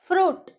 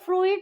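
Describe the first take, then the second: First: The vowel is a single long oo sound. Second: An extra i vowel follows the oo sound. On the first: The speaker calls it right. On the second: The speaker calls it wrong.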